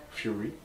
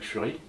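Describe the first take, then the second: First: "Fury" redone in English, fjuʀi with a y-glide; "Fury" said again with an English accent; corrected English Fury. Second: "Fury" said the French way, fyʀi with a French u and rolled r; "Fury" slipped into French sounds; French-style Fury. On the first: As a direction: fix "Fury" to sound English, fyoo-ri. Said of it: "Avec mon accent anglais". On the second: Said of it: "Chaque fois, je fais la faute". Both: Shown as a demonstration.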